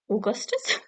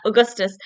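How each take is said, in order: First: Augustus said softly with a questioning rise; odd pronunciation. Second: Said in the usual way. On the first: Real, not acted. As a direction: say "Augustus" oddly, lifting the end like a question. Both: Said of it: "Why did I say it like that?".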